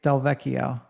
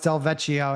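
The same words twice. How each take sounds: First: The middle consonant is a k sound. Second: The middle consonant is a ch sound. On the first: The speaker calls it right. "it's the two C's that make it Del Vecchio" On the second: The speaker calls it wrong. "They pronounce that it that C H, that ch"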